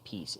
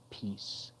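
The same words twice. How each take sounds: First: The final S sound is short and light. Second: The final S sound is long and heavy. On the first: "I didn't just say peace" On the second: "There's like a heavy emphasis on the S there"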